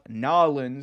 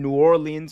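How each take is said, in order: First: The city name is said in a Southern way. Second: The city name is said in a standard way.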